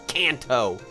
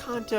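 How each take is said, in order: First: It is pronounced in a more English-sounding way. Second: It is pronounced in a more Japanese-sounding way. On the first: This is the pronunciation heard in the show. "than Kanto" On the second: This is the speaker's preferred pronunciation. "I think it's Kanto. It sounds more Japanese"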